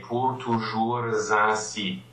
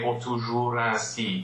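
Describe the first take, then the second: First: Toujours links to ainsi with a Z sound. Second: Toujours runs into ainsi with no S sound. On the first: The speaker calls it right. "You say pour toujours ainsi. ... you will make the liaison for toujours" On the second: The speaker calls it wrong. "you don't say pour toujours ainsi"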